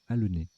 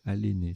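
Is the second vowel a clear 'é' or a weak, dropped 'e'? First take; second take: weak e; clear é. First: The second vowel is a weak, nearly silent e. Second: The second vowel is a clear closed é. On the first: The speaker calls it right. "c'est l'inverse, c'est anhéler et halener. Même halner" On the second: The speaker calls it wrong. "je les ai mal prononcés tout à l'heure"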